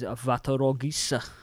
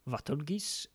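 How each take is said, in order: First: The name is said with Japanese syllables, Va-to-ro-gi-sa. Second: The name is said anglicized, with fewer syllables. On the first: "to pronounce it in the katakana as it is written is" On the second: "they tried to phoneticize into English"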